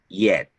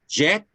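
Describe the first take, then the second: First: The word begins with a Y sound. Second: The word begins with a J sound. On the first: The speaker calls it right. "Notice that the pronunciation is yet" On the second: The speaker calls it wrong. "con J porque sería jet"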